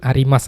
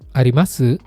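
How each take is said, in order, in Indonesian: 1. 'Su' di akhir hampir tidak terdengar. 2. 'Su' di akhir dibunyikan dan nadanya naik. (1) "Biasanya kan cuma arimas aja" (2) "su-nya itu dibunyiin"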